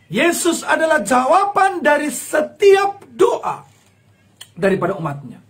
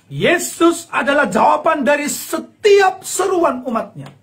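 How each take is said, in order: First: Emotional crying declaration; tearful proclamation. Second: Slow, higher, louder proclamation; slow ringing declaration; preaching at full force. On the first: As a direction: proclaim it near tears. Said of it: "repeated proclamation". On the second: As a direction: proclaim it from the pulpit. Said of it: "preaching proclamation". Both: Real, not acted.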